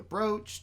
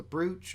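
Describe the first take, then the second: First: Brooch said with a long OH, like "broach". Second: Brooch said with an OO vowel. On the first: Co-host describing Dragona touching it, brooch said "broach". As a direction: rhyme brooch with coach. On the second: Co-host offering another way to say it, brooch with OO. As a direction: rhyme brooch with smooch. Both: Shown as a demonstration. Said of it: "or whatever you wanna call it".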